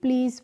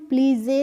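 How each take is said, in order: First: The word ends on the z sound. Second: An extra vowel is sounded at the end. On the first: The speaker calls it right. "प्लीज पढ़ते हैं" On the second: The speaker calls it wrong. "नहीं"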